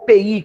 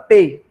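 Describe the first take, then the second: First: Only the letters P and I are spoken. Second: All three letters P, E, I are spoken. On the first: This is how people in Brazil commonly say it. "geralmente o pessoal dá uma, come a letra E no meio" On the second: This is the full, official name. "uma nomenclatura chamada P E I"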